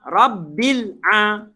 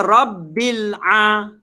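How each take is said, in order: Both takes have the same delivery.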